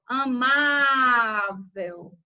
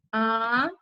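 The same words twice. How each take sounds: First: Very slow amável, leaning long on the stressed syllable má; stressed syllable drawn out. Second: Said in the usual way. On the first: Shown as a demonstration. Teacher to her class, slowly stretching the stressed syllable of amável. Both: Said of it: "O que importa aqui é a tonicidade da sílaba".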